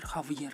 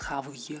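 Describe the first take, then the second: First: The v sound is soft, palatalized. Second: The v sound is hard, not softened. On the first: The speaker calls it right. "él ablanda la V" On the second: The speaker calls it wrong. "no es Javier"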